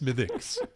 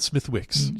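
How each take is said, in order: First: The middle w sound is left silent. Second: The middle w sound is pronounced. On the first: The speaker calls it right. "It is Smithix" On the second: The speaker calls it wrong. "it's not Smithwicks"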